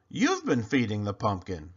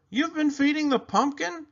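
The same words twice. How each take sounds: First: Lower, flat stunned echo; dawning realization. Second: Much higher, shocked question; surprised boy Clayton. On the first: Desmond echoes Clayton in a lower stunned voice. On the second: Clayton discovers Desmond feeding the pumpkin, high and shocked. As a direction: blurt it in high astonishment. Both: Acted.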